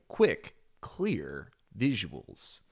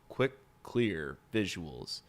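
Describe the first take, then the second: First: It is read in a lively, expressive tone. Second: It is read in a flat, storyless tone. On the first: The speaker calls it right. "There'd be some story to it" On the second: The speaker calls it wrong. "I don't like the tone of it"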